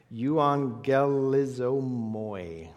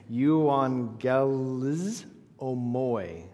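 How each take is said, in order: First: Euangelizomoi drawn out very slowly, syllable by syllable, yoo-ahn-ge-li-zo-moy; Greek word demo. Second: Euangelizomoi drawn out even slower, each syllable held, yoo-ahn-ge-li-zo-moy; Greek word demo. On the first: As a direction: say Euangelizomoi slowly for the room to repeat. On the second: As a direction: model Euangelizomoi again, very slowly. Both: Shown as a demonstration. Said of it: "You're gonna have to repeat it after me".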